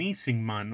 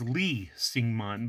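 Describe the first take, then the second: First: The name begins with an N sound. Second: The name begins with an L sound.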